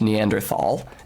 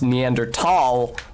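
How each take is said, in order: First: The middle consonant is a 'th' sound. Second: The middle consonant is a plain 't' sound. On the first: This is the older way, matching the spelling. "that's why it's spelled with a T H" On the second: This is how the name has long been said. "it has been pronounced Neanderthal for centuries on centuries"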